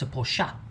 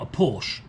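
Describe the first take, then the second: First: It is said the British way. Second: It is said the American way. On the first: The speaker calls it right. "it's a Porsche" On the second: The speaker calls it wrong. "It's not a Porsche"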